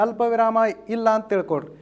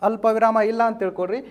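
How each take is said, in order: No difference in how they are said.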